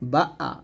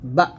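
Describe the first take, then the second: First: The vowel is drawn out into a doubled sound. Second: The vowel is cut off sharply and firmly. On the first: The speaker calls it wrong. "এরকম উচ্চারণ করবেন না, ডাবল শব্দ করা যাবে না" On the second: The speaker calls it right. "এরকম ধাক্কা দিবেন এবং শক্ত করবেন"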